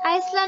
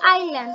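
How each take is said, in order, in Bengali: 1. এই শব্দে s ধ্বনিটি উচ্চারিত হয়। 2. এই শব্দে s ধ্বনিটি নীরব। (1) "আইসল্যান্ড বলা যাবে না" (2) "এস এর উচ্চারণটা উজ্জ্বল থাকবে, হবে আইল্যান্ড"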